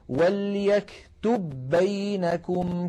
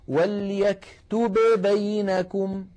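First: The two b sounds merge into one doubled b. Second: The two b sounds are pronounced separately. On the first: The speaker calls it right. "بل يقولون" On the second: The speaker calls it wrong. "فالعرب أبدا ما تقول ... ويعدونه لحنا قبيحا"

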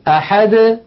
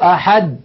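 First: The final d is released with a slight echo. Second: The final d is stopped abruptly, tongue held. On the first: The speaker calls it right. "هكذا بالتباعد بين طرفي عضو النطق" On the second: The speaker calls it wrong. "لا يقولون"

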